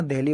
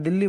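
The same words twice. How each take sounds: First: दिल्ली spoken as English deli, not Hindi dilli; English Delhi. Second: दिल्ली with dental d, short i and doubled l, dil-li; दिल्ली in Hindi pronunciation, dil-li; Hindi Dilli. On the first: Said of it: "दिल्ली बोलेंगे". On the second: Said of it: "और हिंदी में दिल्ली बोलेंगे". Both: Shown as a demonstration.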